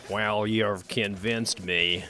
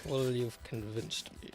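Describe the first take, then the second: First: Slow, drawn-out mock American accent. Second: Low, soft echo of a put-on voice; mock Cumberbatch echo. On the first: Cumberbatch's Doctor Strange conceding, slow mock American accent. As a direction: stretch it into a hammed-up American accent. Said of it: "This is my normal accent". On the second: Friend echoing Cumberbatch's line, low mock voice. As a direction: say it back lower and quieter. Repeating the line after the impression.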